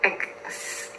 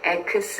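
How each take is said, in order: First: The k sound closes the first syllable. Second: The k sound forms its own separate syllable. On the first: The speaker calls it right. "X 이렇게 발음을 해주시면 되겠습니다" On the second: The speaker calls it wrong. "X 이렇게 발음하시면 안 되고"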